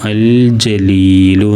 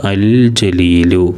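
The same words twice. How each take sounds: First: Said in the usual way. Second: അൽ ജലീലു said slowly, syllable by syllable; slow model reading. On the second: Shown as a demonstration. Teacher models the Arabic word for pupils, slow and careful. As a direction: spell out അൽ ജലീലു slowly for learners. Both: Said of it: "എന്നാണ് വായിക്കുക".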